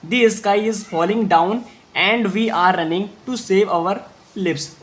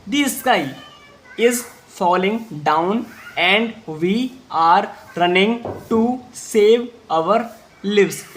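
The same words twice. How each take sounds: First: Slow, steady reread in one flow; slow repeat read. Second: Slow, word by word reading; slow read-aloud. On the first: Teacher rereading slowly for students to follow. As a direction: say it again slowly for repetition. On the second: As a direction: spell it out slowly for the class. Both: Shown as a demonstration. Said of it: "एक बार फिर से बोलेंगे".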